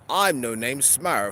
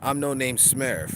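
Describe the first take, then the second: First: It is said in a put-on British accent. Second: It is said in a plain, regular voice. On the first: "They could be British" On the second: "That's that's a regular voice"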